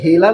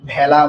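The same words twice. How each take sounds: First: The first vowel is a closed e sound. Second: The first vowel is an open ae sound. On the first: The speaker calls it wrong. "এটাকে আমরা ভেলা না বলে" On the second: The speaker calls it right. "বিবৃত হয়"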